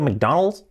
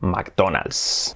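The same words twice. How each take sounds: First: It is said with an American English accent. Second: It is said with a Spanish accent. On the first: The speaker calls it right. "cuando nos dice un americano" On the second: The speaker calls it wrong. "estás acostumbrado a decir McDonald's"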